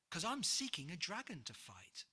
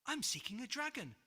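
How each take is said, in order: First: Said in the usual way. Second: George blurts it out high, fast and louder; startled, gasping declaration; surprised gasp. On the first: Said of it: "offered George with a gulp". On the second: Acted. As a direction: caught off guard, rushing the words. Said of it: "gasped George in surprise".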